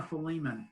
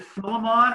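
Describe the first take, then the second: First: Philemon as fuh-LEE-mun; second pronunciation. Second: Philemon as FILL-uh-mon, full final vowel; first pronunciation. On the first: Host quizzing the group, Philemon stressed on LEE. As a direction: stress LEE in Philemon, weak last syllable. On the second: Host quizzing the group, Philemon ending in MON. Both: Shown as a demonstration. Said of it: "is it Philemon or Philemon".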